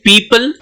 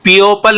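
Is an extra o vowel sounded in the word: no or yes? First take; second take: no; yes. First: It is said with no extra o vowel. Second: An extra o vowel follows the first vowel. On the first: The speaker calls it right. "ओ का sound यहाँ पे नहीं आ रहा" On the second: The speaker calls it wrong. "पीओपल नहीं बोलते हैं"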